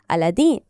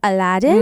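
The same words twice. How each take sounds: First: The name is said with a non-American pronunciation. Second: The name is said with an American pronunciation. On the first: "I love that we use this pronunciation instead of the Americanized one" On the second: "do you want me to say"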